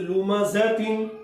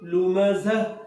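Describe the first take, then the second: First: The word ends with a full nasal -tin ending. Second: The word ends cut short on a silent h. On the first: The reader continues without stopping. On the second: The reader stops at this word.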